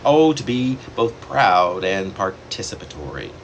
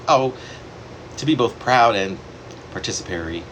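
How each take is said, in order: Both takes have the same delivery.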